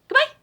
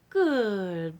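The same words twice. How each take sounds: First: It is said very fast. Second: It is said slowly and stretched out.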